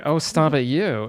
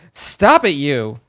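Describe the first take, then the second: First: Much milder telling-off, dropping on you; playful chiding. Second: Mock scolding. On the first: Retold or imitated. Streamer replying to his own scolding, playfully chiding. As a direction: brush it off teasingly. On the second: Streamer scolding himself over a pun, loud mock scolding. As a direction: burst out with a comic telling-off.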